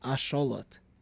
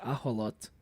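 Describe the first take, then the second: First: The middle consonant is an 'sh' sound. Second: The middle consonant is a breathy 'h' sound. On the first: This is the Nahuatl form of the word. "it's replacing the sh with the with the huh sound" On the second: This is the Spanish form of the word. "I think the Spanish version is ajolot"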